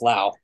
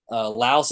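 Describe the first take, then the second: First: The word ends without an s sound. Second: The word ends with an s sound. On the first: The speaker calls it right. "it's just Lao" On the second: The speaker calls it wrong. "you don't pronounce the S in Laos"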